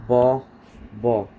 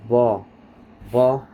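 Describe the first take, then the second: No difference in how they are said.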